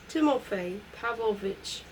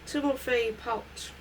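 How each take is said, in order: First: The patronymic is pronounced fully, every syllable clear. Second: The patronymic is slurred into one short syllable.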